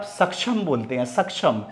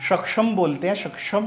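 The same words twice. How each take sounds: First: सक्षम with a plain s start and छ-like middle; straight छ sound. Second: सक्षम as shak-sham with a sh start and audible क; क clearly sounded. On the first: Teacher shows where the क is lost, mispronounced. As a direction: say सक्षम the common way, falling at the end. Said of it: "वहाँ सीधा छ का उच्चारण है". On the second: Teacher contrasts it for learners, correct pronunciation. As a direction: lift सक्षम at the end, क plus श. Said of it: "क का भी साउंड उच्चारण आ रहा है". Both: Shown as a demonstration.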